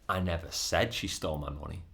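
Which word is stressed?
said. The stress falls on the word said. The speaker only thought or implied it. "but I might have thought it or implied it"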